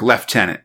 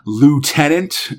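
First: It is said the British way, not starting with loo. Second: It is said the American way, starting with loo. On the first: "which in Britain is pronounced like lieutenant" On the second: "I like the Americanism here. They say, lieutenant, like with L-O-O-T-E-N-A-N-T"

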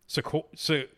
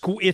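First: A vowel is pronounced between the S and Q. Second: No vowel is pronounced between the S and Q. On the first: The speaker calls it wrong. "I was going with Q-U sounding like a K" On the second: The speaker calls it right. "So the E is just not pronounced at all"

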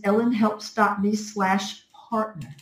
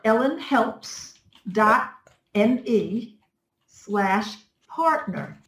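First: It is said at normal speed. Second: It is said slowly and carefully.

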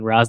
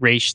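First: The name ends with a z sound. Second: The name ends with an sh sound. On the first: This is the Arabic form of the name. "Ra's the Arabic" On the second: This is the Hebrew form of the name. "Raish the Hebrew"

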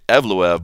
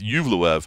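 First: The name begins with an 'eh' sound. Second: The name begins with a 'yoo' sound. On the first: The speaker calls it wrong. "I was saying Evluev" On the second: The speaker calls it right. "but it's Yuvluev"

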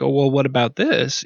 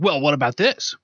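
First: It is asked in a mild, casual tone. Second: It is asked in a confrontational, aggressive tone.

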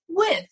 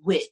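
First: The final consonant sound of the word is pronounced. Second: The final consonant sound of the word is dropped. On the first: This is the standard way to say it. The speaker calls it right. "it's really supposed to be pronounced with" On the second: This is how it is said in the speaker's home dialect. The speaker calls it wrong. "what I would do is I would say wit"

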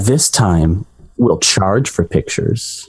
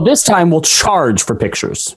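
First: It is said in a more seductive, sultry way. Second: It is said in a plain, not very seductive way.

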